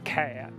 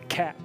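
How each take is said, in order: First: It is drawled out into two syllables. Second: It is said plainly as one syllable.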